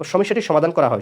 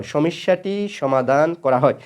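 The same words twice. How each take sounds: First: Said in the usual way. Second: Drawn out at half speed; slow repetition. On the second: Shown as a demonstration. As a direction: say the example slowly, word by word, for students. Example repeated slowly for students.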